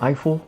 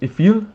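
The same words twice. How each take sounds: First: The name is said with an English pronunciation. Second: The name is said with a French pronunciation. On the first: "That's probably not how you pronounce it" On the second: "they probably say something like Gustav Eiffel"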